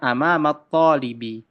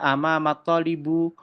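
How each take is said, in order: First: The last word ends with an i vowel. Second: The last word ends with a u vowel. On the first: The speaker calls it right. "Bisanya amamat talibi" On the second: The speaker calls it wrong. "tidak bisa teman-teman dibaca amamat talibu"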